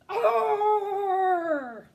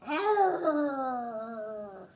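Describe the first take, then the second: First: It is said as a frightened alarm. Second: It is said as an annoyed warning.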